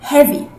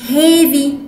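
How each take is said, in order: First: The first vowel is a short 'e'. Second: The first vowel is a gliding 'ay'. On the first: The speaker calls it right. "اسمها heavy" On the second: The speaker calls it wrong. "مش heavy بميلة"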